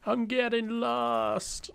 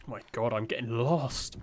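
First: Stretched high wail of frustration; sing-song lost whine, pitched way up; high drawn-out whine. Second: Said in the usual way. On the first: Real, not acted. Repeats lost complaint, high slow.

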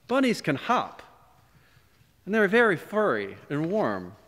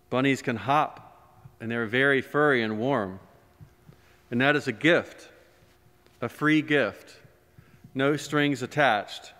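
First: High, wistful little bunny thought; a lightly voiced bunny's hopeful thought. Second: Gentle wise wolf. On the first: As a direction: muse to yourself like a small hopeful rabbit. Bunny musing to himself. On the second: Wise wolf answering bunny. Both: A narrator's reading.

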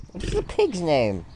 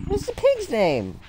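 First: Said in the usual way. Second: Way up high and tiny, like a cartoon critter; squeaky high voice. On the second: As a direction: squeak the question. Repeats question in squeaky voice.

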